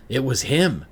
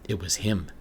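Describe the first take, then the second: First: Higher and louder, panicked cry; blurting it out in shock; a jolt of fear, voice jumping up; terrified realization. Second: Said in the usual way. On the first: Acted. Terror in the mirror.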